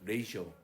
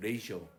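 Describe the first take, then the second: First: It is said with two syllables, ray-shoh. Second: It is said with two syllables, ray-shoh.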